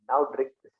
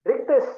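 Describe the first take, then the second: First: Said in the usual way. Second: Higher and louder, pushing the bottle forward; teacher acting out a challenge to a preacher, a loud, high dare; insistent dare. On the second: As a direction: dare him to drink it, raising the voice. Daring the missionary to drink bleach.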